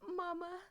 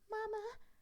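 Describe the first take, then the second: First: It is said in a normal voice. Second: It is said in a high-pitched voice.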